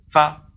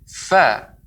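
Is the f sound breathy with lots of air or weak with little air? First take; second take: little air; lots of air. First: The f is made with very little air. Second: The f is made with plenty of air. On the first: The speaker calls it wrong. "udaranya terlalu sedikit" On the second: The speaker calls it right. "lebih banyak"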